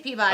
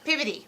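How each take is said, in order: First: It is said in the speaker's usual way. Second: It is said in a Baltimore accent.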